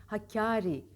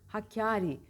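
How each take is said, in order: Both takes have the same delivery.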